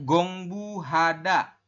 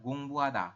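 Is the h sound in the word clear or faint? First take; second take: clear; faint. First: The h sound is pronounced clearly. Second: The h sound is faint. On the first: "tulisannya gongbuhada" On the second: "membacanya adalah gongbuhada"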